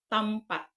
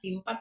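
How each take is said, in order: First: The first vowel sounds like 'a'. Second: The first vowel sounds like 'i'. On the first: This is how it is read in Malay. The speaker calls it right. "pero sa Malayo ana is tampat" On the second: This is how it would be read the local way. The speaker calls it wrong. "kung sa Bisaya untan asa ka nang ato kung kitay mabasa na timpat"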